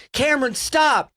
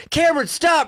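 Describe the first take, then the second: First: Wife yelling. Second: Wife yelling louder. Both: Retold or imitated. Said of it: "you hear the wife be like".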